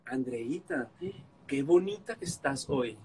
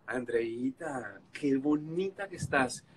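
First: Flattering. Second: Sweet flattery. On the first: Flattering her to make up. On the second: Second flattering attempt. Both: Retold or imitated.

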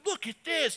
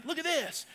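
First: Put-on higher, childlike; little boy voice. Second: Higher and softer; small kid voice; little boy voice. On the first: Boy showing off to dad, lightly voiced child. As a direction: play the eager son. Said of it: "Your little guys are like this". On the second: Retold or imitated. Boy showing off to dad, quieter child. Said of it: "They do this".

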